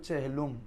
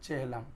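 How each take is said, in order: First: The final syllable has a 'u' vowel. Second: The final syllable has an 'a' vowel. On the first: The speaker calls it right. "মানে উচ্চারণ শুদ্ধ হবে চেহেলুম" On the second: The speaker calls it wrong. "চেহেলাম শরীফ বলে না এ"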